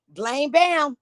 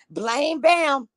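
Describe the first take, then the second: No difference in how they are said.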